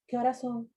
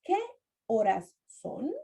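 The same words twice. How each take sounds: First: The words are joined together. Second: The words are said separately. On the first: The speaker calls it right. "We say" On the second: The speaker calls it wrong. "We don't say"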